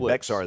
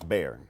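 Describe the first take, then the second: First: The name is not pronounced like 'bear'. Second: The name is pronounced exactly like 'bear'. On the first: The speaker calls it wrong. "don't say Bexar" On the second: The speaker calls it right. "It's Bear. Just like an old bear"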